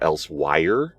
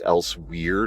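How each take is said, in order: First: The last syllable sounds like 'wire'. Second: The last syllable sounds like 'where'. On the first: The speaker calls it wrong. "not Elsewire" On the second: The speaker calls it right. "it's Elsewhere"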